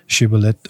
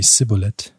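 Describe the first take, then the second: First: The word begins with a sh sound. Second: The word begins with an s sound. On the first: The speaker calls it right. "You cannot say Shibboleth" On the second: The speaker calls it wrong. "only Sibboleth"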